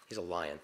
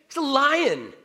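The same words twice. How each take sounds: First: Said in the usual way. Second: High, loud cry of the obvious; emphatic exclamation. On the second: Retold or imitated. Emphatic answer to Narnia question.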